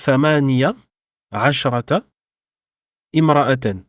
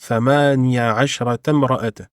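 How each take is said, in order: First: The words are said separately without linking. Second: The words are linked together in one flow.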